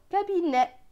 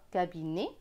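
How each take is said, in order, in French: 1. La voyelle finale est ouverte, comme è. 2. La voyelle finale est fermée, comme é. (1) "ou N et est, n'est" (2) "N et E, né"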